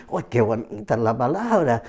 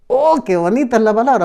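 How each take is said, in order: First: "Oh, qué bonita es la palabra" dropped low and soft; softer echo. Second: Higher and fast, gushing; "Oh, qué bonita es la palabra" quick and bright, pitched up; delighted quote. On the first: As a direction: lower and softer, reflective. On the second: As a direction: gush like a new believer thrilled. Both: Retold or imitated. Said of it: "Muchos dicen".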